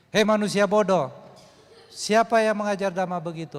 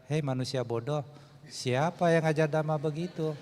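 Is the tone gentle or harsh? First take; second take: harsh; gentle. First: It is said in a hard, harsh tone. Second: It is said in a soft, gentle tone. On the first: The speaker calls it right. "Kadang-kadang kita perlu keras" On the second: The speaker calls it wrong. "Kalimat itu tidak mungkin diucapkan"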